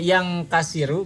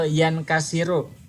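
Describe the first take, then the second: First: The n before k becomes a nasal ng. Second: The n before k is a plain n. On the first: The speaker calls it wrong. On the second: The speaker calls it right.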